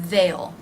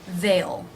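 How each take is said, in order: First: It is contracted into one syllable. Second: The same.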